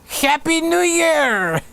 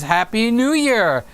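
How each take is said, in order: First: It is said in a put-on comic voice. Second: It is said in the speaker's normal voice.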